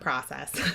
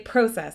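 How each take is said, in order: First: The word is pronounced the American way. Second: The word is pronounced the Canadian way. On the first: "not process" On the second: "I'm Canadian, so I will say process"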